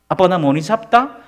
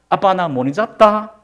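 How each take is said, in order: No difference in how they are said.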